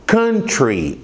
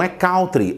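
First: Country said the English way, KUN-tree; short uh vowel in country, KUN-tree; correct English pronunciation. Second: Country said Brazilian style, KAU-tree; wrong Brazilian pronunciation. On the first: Teacher giving students the correct form, English KUN-tree. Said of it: "a pronúncia não é country, é". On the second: Teacher showing the common Brazilian mistake, KAU-tree. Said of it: "a pronúncia não é". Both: Shown as a demonstration.

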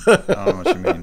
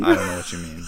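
First: High, loud squeaky protest; high mock innocent voice. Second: Said in the usual way. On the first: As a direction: jump the pitch up in mock innocence. Joking denial, said twice.

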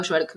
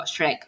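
First: "Shrek" said with a w glide, like "Shwerk"; "Shrek" with the r moved after the vowel, "Shwerk"; mispronounced Shrek. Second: "Shrek" said without any w glide; "Shrek" pronounced the standard way, not "Shwerk". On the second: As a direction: say "Shrek" straight, r before the vowel. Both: Shown as a demonstration. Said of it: "no digo Shrek".

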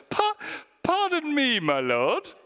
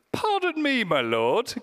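First: Much higher hammed-up posh British pardon; exaggerated British politeness. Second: High, fussy very British pardon me; posh British reading. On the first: Preacher repeats Gideon's reply with a hammed-up British accent. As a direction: ham up a prim British gent. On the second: Pretend. Preacher mocks the Bible's polite Gideon in a very British voice. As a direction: say it like an overly polite Englishman. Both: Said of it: "the most British Bible translation".

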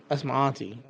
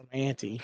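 First: "auntie" as AHN-tee; silly auntie. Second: "auntie" as ANN-tee; silly auntie. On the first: Being silly about family, "auntie" as AHN-tee. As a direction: say "auntie" with an open ah. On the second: Being silly about family, "auntie" as ANN-tee. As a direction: say "auntie" with the vowel of "ant". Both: Shown as a demonstration. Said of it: "when I'm gonna be silly".

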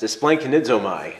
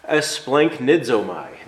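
First: Esplanchnizomai rattled off more quickly; a playful quick run at esplanchnizomai; quick tongue-twister. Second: Esplanchnizomai said slowly, syllable by syllable; a measured, deliberate esplanchnizomai; careful pronunciation. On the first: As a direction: say esplanchnizomai briskly, about to laugh. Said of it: "say that five times fast". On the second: Introduces the Greek word carefully. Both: Shown as a demonstration.

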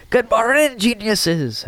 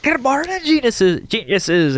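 First: Lightly put-on Scottish teacher greeting, high on morning; a weak stab at a Scottish brogue; half-hearted Scottish accent, raised pitch; bad Scottish accent. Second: Much higher, hammed-up Scottish greeting; bad Scottish accent, pitched way up; really bad Scottish accent. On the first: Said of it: "I can't do a good Scottish accent either". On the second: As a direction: overdo a terrible Scottish brogue. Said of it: "in a really bad Scottish accent".

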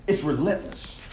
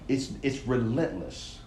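First: Said in the usual way. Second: Slow, hushed and weighty; slow emphatic. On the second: Shown as a demonstration. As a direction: lean into relentless, drawn out and softer.

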